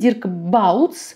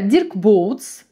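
First: The surname's first vowel sounds like 'ow'. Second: The surname's first vowel sounds like 'oh'. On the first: The speaker calls it right. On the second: The speaker calls it wrong.

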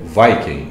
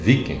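First: The word has an English-style pronunciation. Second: The word has a Brazilian Portuguese pronunciation. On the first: This is not how many Brazilians say it. "muitos aqui no Brasil não pronunciam Viking" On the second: This is how many Brazilians say it. "nacionalizando aí a expressão ... e sim Viking"

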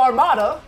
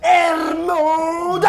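First: The word is said in an American accent. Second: The word is yelled in a European accent. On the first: The speaker calls it wrong. "We'll be like, oh, Armada" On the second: The speaker calls it right. "they go, Ermuda! ... They say it way cooler"

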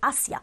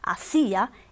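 First: The stress falls on the first syllable. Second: The stress falls on the second syllable. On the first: It is the preposition meaning 'toward'. "si no voy a decir hacia. Y hacia es otra cosa, es la preposición" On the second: It is a past form of the verb 'to do'. "el acento sobre la i es obligatorio"

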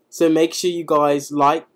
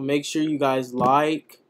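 First: It is said in a put-on British accent. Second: It is said in his normal American accent.

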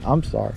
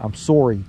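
First: It is said in the speaker's usual accent. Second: It is said in a put-on Canadian accent.

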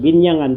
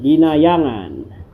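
First: The name is said with three syllables. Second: The name is said with four syllables. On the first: "yung ibang nagbibigkas nito, ang dinig ko, ginyangan lang" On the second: "Kasi may A, ayun o. Yan o, ginayangan"

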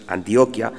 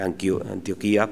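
First: The stress falls on the syllable with 'o'. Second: The stress falls on the syllable with 'i'. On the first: This is the correct local pronunciation. The speaker calls it right. "pero es Antioquía" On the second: This is how the speaker habitually says it. The speaker calls it wrong. "diré Antioquía"

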